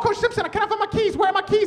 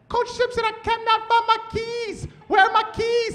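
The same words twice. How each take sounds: First: It is said fast. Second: It is said slowly.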